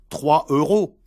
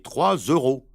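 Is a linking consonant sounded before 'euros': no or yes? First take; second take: no; yes. First: No linking sound joins the two words. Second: A linking z sound joins the two words. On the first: The speaker calls it wrong. "Il ne faut donc pas dire" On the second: The speaker calls it right.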